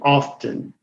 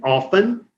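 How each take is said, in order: First: The T sound is pronounced. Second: The T sound is silent. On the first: "se puede pronunciar la T" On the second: "la T puede ser muda"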